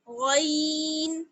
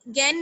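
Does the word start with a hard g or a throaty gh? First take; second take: throaty gh; hard g. First: It starts with a thick, raised throaty gh. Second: It starts with a plain hard g sound. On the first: The speaker calls it right. "बल्कि क्या पढ़ना है" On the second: The speaker calls it wrong. "याद रखिए कि गैन गैन नहीं पढ़ना है"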